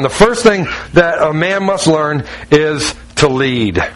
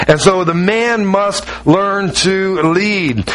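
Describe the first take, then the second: First: Slowed down, each word weighed; emphatic slow delivery. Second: Much slower, stretched out for weight; emphatic slow restatement. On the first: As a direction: lay it down slowly like a key point. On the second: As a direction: drag it out so it sinks in. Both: Shown as a demonstration.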